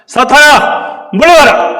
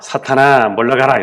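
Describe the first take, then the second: First: The command is said firmly, with strong force. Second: The command is said weakly, without force.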